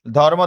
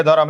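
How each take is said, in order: First: Said in the usual way. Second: ধরম as "dho-rom", two open syllables; inserted vowel. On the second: Shown as a demonstration. Teacher quizzes class on the change, ধরম as "dho-rom". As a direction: sound an "o" between r and m in ধরম. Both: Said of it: "এটার সাথে একটা কি আসছে".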